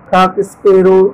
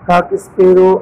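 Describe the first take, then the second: Both takes have the same delivery.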